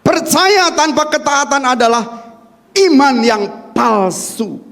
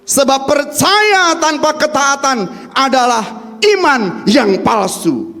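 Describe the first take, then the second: First: Slow, weighty repeat for notes; measured dictation; slow emphatic repeat. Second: Slow, stressed sermon line; deliberate dictation pace; slow emphatic. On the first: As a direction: hammer it home slowly. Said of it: "Catat di sini". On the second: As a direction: spell it out for note taking. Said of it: "Bisa dicatat Bapak Ibu". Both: Shown as a demonstration.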